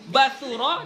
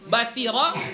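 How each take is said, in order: First: A u vowel follows the s sound. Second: An i vowel follows the s sound. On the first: "dengan mendommahkan sa" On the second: "dengan mengkasrahkan sa"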